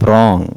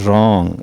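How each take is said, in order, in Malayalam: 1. തുടക്കത്തിലെ W ഉച്ചരിക്കുന്നു. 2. തുടക്കത്തിലെ W നിശ്ശബ്ദമാണ്. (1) "this is not റോങ്" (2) "ഡബ്ല്യു ആണ് സൈലന്റ് ആയിട്ട് വരുന്നത്"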